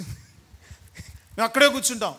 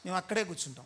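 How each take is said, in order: First: Slow, dragged-out mock of a lazy churchgoer; mocking stubborn reply. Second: Said in the usual way. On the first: Preacher mocking worshippers who refuse to come inside, slow stubborn drawl. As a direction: stretch each word of అక్కడే like someone refusing to budge. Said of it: "ఇక్కడ place ఉంది, లోపలికి రండి అంటే".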